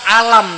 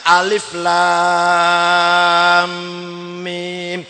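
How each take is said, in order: First: The letters are read together as one short word. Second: Each letter name is read out in full. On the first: The reader does not know the reading rules. The speaker calls it wrong. "nek ora ora ono ilmu tajwid, alif lam mim dibaca alam" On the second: The reader follows the reading rules. The speaker calls it right. "kata ilmu tajwid bacanya alif lam mim"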